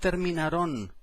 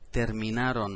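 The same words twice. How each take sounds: First: The stress falls off the second-to-last syllable. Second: The stress falls on the second-to-last syllable. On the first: The speaker calls it wrong. "no terminaron" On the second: The speaker calls it right. "acento en la A"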